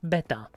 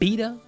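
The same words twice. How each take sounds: First: The word is said with a Czech pronunciation. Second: The word is said with an English pronunciation. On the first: "like a normal Czech person" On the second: "Never know how to pronounce beta in English"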